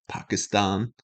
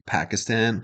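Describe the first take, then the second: First: The word's stress is moved to another syllable. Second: The word has its ordinary everyday stress pattern.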